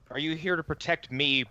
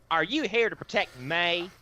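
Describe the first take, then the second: First: It is said in a plain, neutral accent. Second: It is said in an exaggerated Southern twang.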